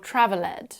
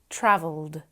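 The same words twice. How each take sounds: First: The ending is said as an extra syllable. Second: The ending adds no extra syllable. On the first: The speaker calls it wrong. "try to pronounce the E at the end of the word" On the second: The speaker calls it right. "They should be"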